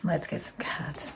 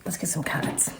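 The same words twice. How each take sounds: First: Whispered, even softer repeat; whispered aside to herself. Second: Softer murmured aside to herself; quiet aside. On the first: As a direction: breathe it out as a whisper. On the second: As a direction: mumble it under your breath. Aside to herself before the cards. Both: Real, not acted.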